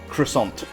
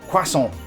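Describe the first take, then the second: First: The word is said with an American pronunciation. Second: The word is said with a British pronunciation. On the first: The speaker calls it wrong. "that's how the Americans pronounce it" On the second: The speaker calls it right. "it's croissant"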